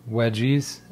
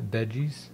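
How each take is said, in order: First: Wedgies said with a W sound instead of V; a German-accent slip that turns veggies into wedgies; slip of the tongue. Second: Veggies said with a clear V sound; corrected word. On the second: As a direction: fix the slip and say veggies properly. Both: Real, not acted. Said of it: "not wedgies".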